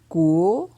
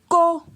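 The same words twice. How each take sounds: First: The syllable has a rising tone. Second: The syllable has a high tone. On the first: "Ton montant" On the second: "Ton haut"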